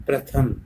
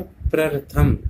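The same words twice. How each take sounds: First: Said in the usual way. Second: प्रथम with an extra r, prar-tham; misspelt reading. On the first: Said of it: "जबकि होता". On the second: Shown as a demonstration. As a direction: slip a second र before थ in प्रथम. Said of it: "क्या लिखा है". (प्रथम को प्रर-थम पढ़ें)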